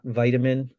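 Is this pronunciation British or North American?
North American. It is said with a North American pronunciation. "not vitamin"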